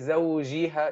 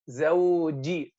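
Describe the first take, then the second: First: The j sound is soft and drawn out. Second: The j sound is a hard, stopped sound. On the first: The speaker calls it wrong. "so you don't say" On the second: The speaker calls it right. "make it شديد"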